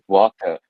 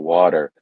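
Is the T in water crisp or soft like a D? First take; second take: crisp; soft. First: It is said the local way, with a crisp T. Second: It is said the American way, with a soft T.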